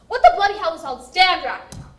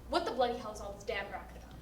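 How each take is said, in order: First: The line is said at a louder level. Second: The line is said at a quieter level.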